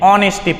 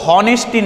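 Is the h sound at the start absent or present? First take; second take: absent; present. First: The word begins with a vowel sound. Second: The word begins with an h sound. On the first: The speaker calls it right. "ऑनेस्टी पढ़ते हैं" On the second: The speaker calls it wrong. "इसको हॉनेस्टी नहीं"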